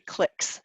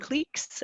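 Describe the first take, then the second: First: It is said the American way, like 'clicks'. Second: It is said the Canadian way, like 'cleeks'.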